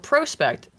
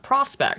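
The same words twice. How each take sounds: First: The first syllable sounds like 'pro' with 'oh'. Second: The first syllable sounds like 'prah' with 'ah'. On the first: The speaker calls it right. "if it starts with P R O, it's pro" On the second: The speaker calls it wrong. "and not prospect"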